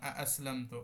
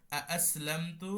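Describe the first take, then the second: First: আসলামতু said slowly, opening আ drawn out; slow demo. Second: আসলামতু stretched very slowly, long আ then a rise; very slow demo. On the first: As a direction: spell out আসলামতু slowly with a long আ. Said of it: "যেমন আ-, আসলামতু". (ধীরে আসলামতু উচ্চারণ) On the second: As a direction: draw আসলামতু out carefully for students. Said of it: "যেমন". (খুব ধীরে টেনে আসলামতু) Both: Shown as a demonstration.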